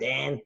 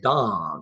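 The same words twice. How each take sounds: First: Dan is said with an Australian pronunciation. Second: Dan is said with an English pronunciation. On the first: "The Australian Dan" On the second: "Maybe the English say Dan"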